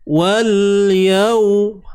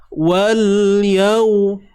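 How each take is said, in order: Both takes have the same delivery.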